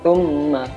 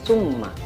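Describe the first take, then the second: First: The word begins with a 'th' sound. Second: The word begins with an 's' sound. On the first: The speaker calls it right. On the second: The speaker calls it wrong.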